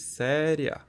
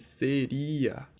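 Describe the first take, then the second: First: The i glides weakly into the final a. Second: The i and a are two full vowels. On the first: "o I é pronunciado com menos intensidade do que o A" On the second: "tanto o I quanto o A nessa palavra é pronunciado com mais intensidade"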